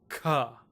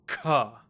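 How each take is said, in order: First: The k is said with a strong puff of breath. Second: The k is said with a strong puff of breath.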